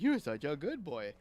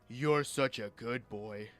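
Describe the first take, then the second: First: It is said in a happy, upbeat voice. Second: It is said in a low, deep voice. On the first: The listener did something good. "with a happy voice" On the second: The listener did something wrong. "if I say it in a low voice"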